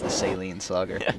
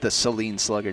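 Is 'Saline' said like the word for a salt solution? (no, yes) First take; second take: yes; no. First: Saline is said like the salt-solution word. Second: Saline is not said like the salt-solution word. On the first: It makes her sound like a saltwater solution. "As though she's a saltwater solution" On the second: It names the player's hometown. "doesn't have the same ring to it"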